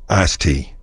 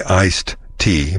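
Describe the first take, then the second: First: "iced tea" said as "ice tea"; dropped D. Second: Said in the usual way. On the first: Shown as a demonstration. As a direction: run "iced tea" together, no D. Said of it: "ditch the D on iced tea". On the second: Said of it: "It is technically iced tea".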